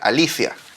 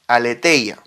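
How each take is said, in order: First: It is said with 'li-ci' in the middle. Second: It is said with 'le-thei' in the middle. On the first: This is how the word is really said in Greek. "en realidad en griego se pronuncia alicia. Eh, así debería pronunciarse" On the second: This is the common spelled-out form of the word. "verdad es la palabra aletheia"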